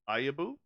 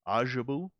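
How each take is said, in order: First: The J is silent, starting with a Y sound. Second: The J is pronounced as a J sound. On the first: "Or is that a silent J?" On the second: "Or is that a pronounced J?"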